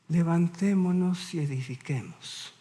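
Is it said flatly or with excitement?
flatly. It is read in a plain, flat way.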